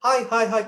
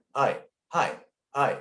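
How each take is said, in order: First: High, louder thin greetings from the throat; pitched-up, throaty hellos. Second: Said in the usual way. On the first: Shown as a demonstration. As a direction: repeat it high without chest support. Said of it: "And instead of saying". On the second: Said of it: "get some power and, and air from your lungs".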